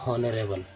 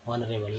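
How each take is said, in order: First: The word starts with an audible h sound. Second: The word starts with a vowel, no h. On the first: The speaker calls it wrong. "ना कि पढ़ते हैं हॉनरेबल" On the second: The speaker calls it right. "क्या पढ़ते हैं, ऑनरेबल"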